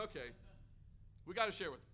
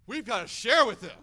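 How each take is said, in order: First: Understated, hesitant self-urging; squeamish resolve. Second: Imitating an insistent wife, much louder; urgent insistence. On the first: Retold or imitated. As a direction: talk yourself into it, mildly reluctant. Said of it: "we kinda squeamishly go up". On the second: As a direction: push him into it, forcefully acted. Wife urges him, retold.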